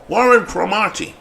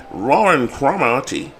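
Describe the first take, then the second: First: "Warren Cromartie" said carefully, each syllable clear and full; proper name pronunciation. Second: Said in the usual way. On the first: Shown as a demonstration. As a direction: announce "Warren Cromartie" like a stadium name call. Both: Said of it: "Say his name properly".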